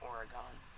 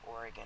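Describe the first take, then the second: First: It starts with a drawn-out 'Ori' sound. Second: It starts like the word organ. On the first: This is how outsiders say it. "and not Oregon" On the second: This is how locals say it. "I say Oregon"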